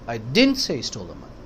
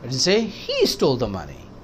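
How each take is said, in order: First: The stress is on didn't. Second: The stress is on he.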